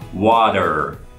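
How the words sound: The R at the end is clearly pronounced. "in American English, there was a water, that you could hear the R"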